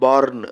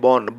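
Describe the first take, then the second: First: The R sound is pronounced. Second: The R sound is silent. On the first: The speaker calls it wrong. "born அப்படின்னு சொல்லக்கூடாது" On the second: The speaker calls it right. "ஆர் சைலண்ட்டாக இருக்கணும்"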